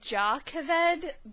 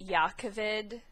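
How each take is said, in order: First: The name begins with a J sound. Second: The name begins with a Y sound. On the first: The speaker calls it wrong. "I've been saying it Jakaved" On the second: The speaker calls it right. "Yakaved makes a lot more sense"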